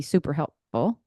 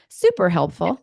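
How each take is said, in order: First: Said in the usual way. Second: Louder, playfully American-style delivery; playful American emphasis. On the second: Shown as a demonstration. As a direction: lean into an American-style gush. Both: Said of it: "That was such an American thing to say".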